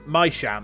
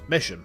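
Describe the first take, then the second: First: The first vowel is a long i, like 'my'. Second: The first vowel is a short i, like 'miss'. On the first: The speaker calls it wrong. "it doesn't become my sham" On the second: The speaker calls it right. "it's Misham"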